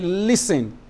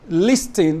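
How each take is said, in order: First: The T sound is left out completely. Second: The T sound is pronounced in the middle. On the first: The speaker calls it right. "You say listen. You pronounce the S, you don't pronounce the T" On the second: The speaker calls it wrong. "you don't say listen because the T is silent"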